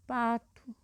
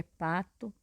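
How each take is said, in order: First: "Pato" with the final o said as U. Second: "pato" with the final o said as a full O; final O as written. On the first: Teacher giving an example of everyday speech, "Pato" ending in U. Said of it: "acabamos colocando a letra U no lugar". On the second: Teacher showing how the word is written, "pato" ending in O. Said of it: "palavra terminada com a letra O". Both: Shown as a demonstration.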